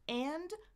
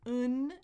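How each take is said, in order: First: The word is said fully with its vowel. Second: A weak schwa vowel is followed by n only. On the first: "four ways to say the word A N D" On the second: "I can keep that schwa. I can say n, just not do the D"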